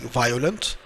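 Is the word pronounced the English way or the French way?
English. It is pronounced with English sounds. "it's like violent"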